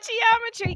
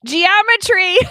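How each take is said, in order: First: Said in the usual way. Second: Punchline. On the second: Real, not acted. Punchline, then repeated.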